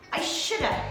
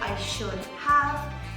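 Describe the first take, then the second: First: 'Have' is reduced to a short 'a'. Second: 'Have' is said as a full word. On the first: The speaker calls it right. "We say shoulda" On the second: The speaker calls it wrong. "We don't say I should have"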